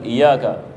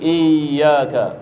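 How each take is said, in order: First: The y sound is single and short. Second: The y sound is doubled and held. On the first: The speaker calls it wrong. "bukan iyyaka" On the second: The speaker calls it right. "wajib kita menghidupkan tasydid"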